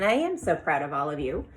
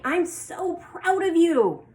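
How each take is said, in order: First: Said in the usual way. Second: Much higher, slow and full of feeling; strong emotion. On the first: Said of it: "I probably wouldn't just be telling you that". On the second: Shown as a demonstration. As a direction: gush it out like a proud teacher. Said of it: "putting some feeling or some emotion behind that".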